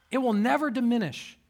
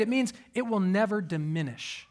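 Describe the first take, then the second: First: "never" lifted higher for emphasis; raised, emphatic "never"; stress on never. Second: Said in the usual way. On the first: Shown as a demonstration. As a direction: lean hard on the word "never".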